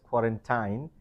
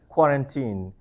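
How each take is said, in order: First: The last syllable is said following its spelling. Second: The last syllable is said the usual way. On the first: The speaker calls it wrong. "because it's T I N E, people, most people mispronounce as quarantine" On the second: The speaker calls it right. "It should be pronounced as quarantine"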